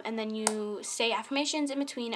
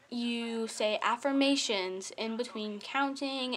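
First: Said in the usual way. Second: Careful slow retry. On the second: Shown as a demonstration. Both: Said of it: "if I mess up one more time".

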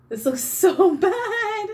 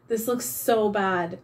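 First: Much higher, louder, slow, collapsing into laughter on "so"; laughing. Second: Said in the usual way. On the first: Real, not acted. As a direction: lose it laughing mid-sentence. Repeats verdict, breaks into laughter.

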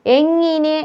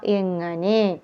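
First: എങ്ങിനെ with "ngi", high-pitched; wrong vowel. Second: എങ്ങനെ with "nga", softer; correct vowel. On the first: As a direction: show the mistaken i in എങ്ങിനെ. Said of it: "എന്നല്ല". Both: Shown as a demonstration.

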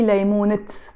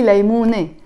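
First: ليمونة wrongly ended on a pronounced T, "laymunit"; wrong final T. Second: ليمونة ending in an open "e", no T; silent te marbuta. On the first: Teacher shows learners what not to say: ليمونة with a final T. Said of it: "I don't say". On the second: Teacher shows the word on its own: ليمونة with silent T. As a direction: say ليمونة as "laymune", T left silent. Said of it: "I just don't pronounce it". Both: Shown as a demonstration.

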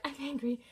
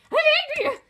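First: Quiet angry. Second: High, loud I'm angry; shouted anger. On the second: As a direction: yell it out with full force. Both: Shown as a demonstration.

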